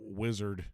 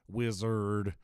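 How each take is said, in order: First: The word is said in a plain accent. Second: The word is said with a Southern drawl. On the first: "Just simple wizard" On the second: "it sounds more southern wizard"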